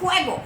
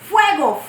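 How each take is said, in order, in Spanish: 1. La palabra empieza con un sonido j fuerte. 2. La palabra empieza con un sonido f. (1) "lo decimos con J, como si fuera de jugar" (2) "En vez de decir fuego con F"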